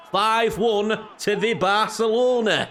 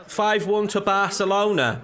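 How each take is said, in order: First: Put-on slow, broad Yorkshire accent; old Yorkshire accent. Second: Said in the usual way. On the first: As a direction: drawl it in old Yorkshire dialect. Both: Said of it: "five one to Barcelona in the old Yorkshire".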